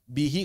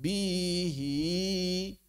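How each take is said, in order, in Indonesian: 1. Vokalnya pendek dan normal. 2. Vokalnya dipanjangkan.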